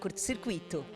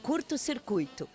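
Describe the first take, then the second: First: The stress falls on the i after u. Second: The stress falls on the u before i. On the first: The speaker calls it wrong. "Tá errado falar curto-circuito" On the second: The speaker calls it right. "Quer uma outra bem bonitinha?"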